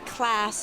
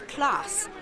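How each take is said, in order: First: The vowel is a flat American 'a'. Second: The vowel is a long British 'ah'. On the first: The speaker calls it wrong. "you cannot do an American A" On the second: The speaker calls it right. "It's class"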